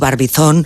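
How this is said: It is said with a Spanish pronunciation. "Diremos, como lo acabas de decir tú"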